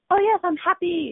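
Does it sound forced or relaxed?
forced. It sounds tense and forced.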